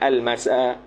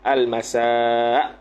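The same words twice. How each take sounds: First: The final vowel is short, with no glottal stop. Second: The final vowel is long, ending in a glottal stop. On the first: The speaker calls it wrong. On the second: The speaker calls it right. "dibacakan dia bil maddi, dengan mat, iaitu ada hamzah belakang"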